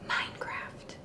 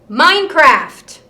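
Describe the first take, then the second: First: It is said very softly. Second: It is said loudest of the three.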